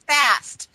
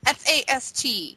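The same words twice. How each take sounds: First: Said in the usual way. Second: F A S T spelled letter by letter. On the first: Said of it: "You said fat". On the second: Shown as a demonstration. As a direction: spell F A S T out slowly.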